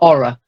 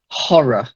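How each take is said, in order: First: The word begins with a vowel, no H. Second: The word begins with an audible H sound. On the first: The speaker calls it wrong. "not aura" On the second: The speaker calls it right. "voiced H"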